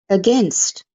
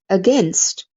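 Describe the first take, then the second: No difference in how they are said.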